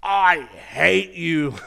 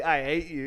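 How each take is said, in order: First: Slow, drawn-out angry yell; hammed-up furious holler; furious skier. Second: Said in the usual way. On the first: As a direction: stretch each word in loud, high outrage. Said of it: "he was just so mad, so furious". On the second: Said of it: "not only does he say".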